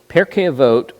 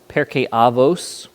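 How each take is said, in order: First: It is said with a non-Ashkenazi pronunciation. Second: It is said with an Ashkenazi pronunciation. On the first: "is one of the most common"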